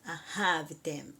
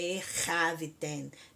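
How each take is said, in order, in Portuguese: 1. A primeira consoante é um soprinho suave. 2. A primeira consoante é arranhada na garganta. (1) "bem ah, aspirado" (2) "não é erraviten"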